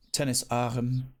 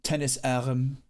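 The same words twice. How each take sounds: First: "Tennis arm" said slowly, each word spelled out; slow, deliberate "Tennis arm"; slow explanatory. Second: Said in the usual way. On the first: Shown as a demonstration. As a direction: teach the local term slowly. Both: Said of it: "they call it over here".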